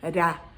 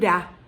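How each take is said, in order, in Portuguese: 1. O R é um toque leve e suave. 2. O R é um toque leve e suave.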